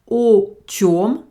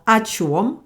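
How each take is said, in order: First: The first vowel is a full 'o' sound. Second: The first vowel is reduced to an 'a' sound.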